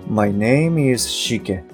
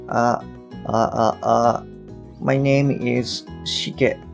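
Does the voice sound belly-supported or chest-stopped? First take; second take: belly-supported; chest-stopped. First: The voice sounds full, pushed from the belly. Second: The voice sounds shallow, held back in the chest. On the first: The speaker calls it right. "お腹の方からですね" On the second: The speaker calls it wrong. "胸から止まっちゃってるような音"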